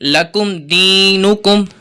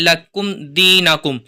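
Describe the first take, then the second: First: The vowel after n sounds like u. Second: The vowel after n sounds like a. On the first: The speaker calls it right. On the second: The speaker calls it wrong.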